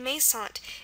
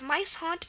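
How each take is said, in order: First: The first vowel is an 'ay' sound. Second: The first vowel is a long 'eye' sound. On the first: "the second pronunciation" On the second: "the long I sound"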